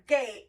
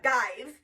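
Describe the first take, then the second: First: The vowel is long, saying its letter name. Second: The vowel is short, not its letter name. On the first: The speaker calls it wrong. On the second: The speaker calls it right.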